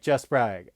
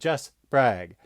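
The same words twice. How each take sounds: First: The name is said fast and run together. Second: The name is said slowly with words kept apart. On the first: Listeners mishear the name as a different one. The speaker calls it wrong. "if you say it too fast on air, it sounds like" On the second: Listeners catch the name correctly. The speaker calls it right. "it'll sound weird because I'm going"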